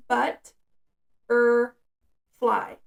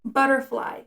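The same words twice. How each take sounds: First: Butterfly broken up as "but", "er", "fly" with a pause after each syllable; split into syllables. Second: Said in the usual way. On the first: Shown as a demonstration. Parent showing the child how to count syllables, said syllable by syllable. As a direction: clap it out syllable by syllable, pausing between beats. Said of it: "How many syllables?". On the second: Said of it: "They'll have to say it out loud".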